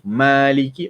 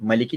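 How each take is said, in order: First: The first vowel is long. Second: The first vowel is short. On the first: "Maliki empat huruf" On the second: "Maliki tiga huruf"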